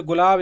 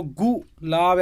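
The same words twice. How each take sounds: First: Said in the usual way. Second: गु लाब broken in two with a pause; over-separated गु लाब, louder; split into syllables. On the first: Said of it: "एक ही बार में बोल देगा". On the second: Shown as a demonstration. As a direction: punch गु, pause, then लाब. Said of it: "ऐसे कोई नहीं बोले".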